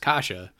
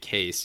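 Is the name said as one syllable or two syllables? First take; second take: two syllables; one syllable. First: The name is said as two syllables, like kasha. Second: The name is said as one syllable, like case. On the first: The speaker calls it right. "It's Kasha" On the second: The speaker calls it wrong. "pronouncing it Case"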